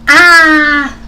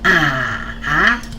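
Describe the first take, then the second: First: The pitch falls sharply from high to low. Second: The pitch dips down and then rises. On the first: "this is a straight falling tone" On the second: "goes down and then go up"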